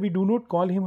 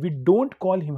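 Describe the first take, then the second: First: 'Do not' is said as two full words. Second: 'Do not' is shortened to one syllable. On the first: "पहले sentence में क्या है" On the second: "जब हम डू नॉट को short form में use करेंगे"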